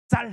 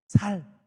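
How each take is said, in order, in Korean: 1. 이 단어는 된 's' 소리로 시작해요. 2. 이 단어는 예사 's' 소리로 시작해요. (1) "쌀 해봐" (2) "경상도 사람들이 쌀이라고 못하고 살이라고 하는 거죠"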